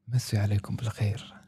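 The greeting sounds deep, serious and dramatic. The speaker calls it right.

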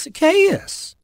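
The name is said warmly with joy and love. The speaker is glad to see the person named. "with that note of joy and expectation and love in his voice"

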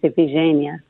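The name is said the Greek way. This follows the original language. "The Greek pronunciation is Iphigenia"

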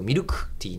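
The ku vowel is devoiced, Kanto style.

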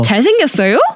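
The pitch rises at the end. Asking whether he is good looking. "If you want to raise it as a question"

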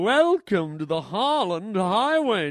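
It is said in a silly put-on voice.

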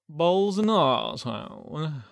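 It is said in a British accent.

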